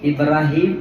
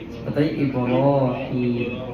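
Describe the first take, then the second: First: The 'ra' sound is light and open. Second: The 'ra' sound is heavy and rounded. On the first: This is how it is commonly said locally. The speaker calls it wrong. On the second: This is how it should properly be said. The speaker calls it right.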